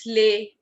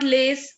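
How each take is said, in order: First: The final consonant is silent. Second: The final consonant is pronounced. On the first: The speaker calls it right. "it's lay" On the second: The speaker calls it wrong. "It's not lace"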